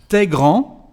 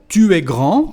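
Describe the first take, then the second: First: The pronoun is contracted into t'es. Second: The pronoun tu is said in full.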